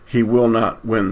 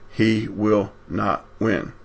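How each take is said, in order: First: Said in the usual way. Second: "he will not win" slowly, word by word; emphatic word-by-word promise. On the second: Real, not acted. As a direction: pause between words in "he will not win". Repeated as a solemn promise.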